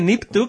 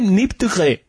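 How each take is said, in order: First: The title is said without a French accent. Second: The title is said with a French accent.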